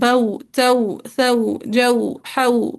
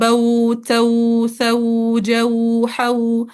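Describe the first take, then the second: First: The vowel glides are short and soft. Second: The vowel glides are stretched out long. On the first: The speaker calls it right. "असलन लंबा नहीं करना होता, नरमी से पढ़ना होता है" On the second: The speaker calls it wrong. "Students अमूमन मिस्टेक करते हैं, ये मिस्टेक है"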